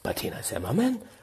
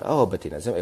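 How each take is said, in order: First: The name is said with great excitement. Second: The name is said calmly, without excitement.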